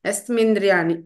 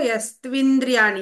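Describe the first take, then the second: First: The second syllable begins with an m sound. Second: The second syllable begins with a tv sound. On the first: The speaker calls it wrong. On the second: The speaker calls it right.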